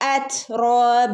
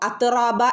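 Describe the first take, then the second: First: The t sound releases air through the teeth. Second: The t sound is plain, without air escaping. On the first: The speaker calls it right. "നമ്മുടെ പല്ലിന്റെ ഇടയിലൂടെ കാറ്റ് പോകുന്ന രൂപത്തിൽ" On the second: The speaker calls it wrong. "അത്റാബ എന്ന് ഓതരുത്"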